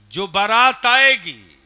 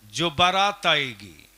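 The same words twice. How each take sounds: First: "जो बारात आएगी" loud, high and slow; emphatic repeat. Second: Said in the usual way. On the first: Real, not acted. Preacher laying down a wedding rule, "जो बारात आएगी" loud and drawn out.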